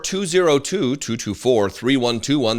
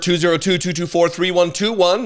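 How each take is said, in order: First: It is read more slowly. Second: It is read at a normal pace.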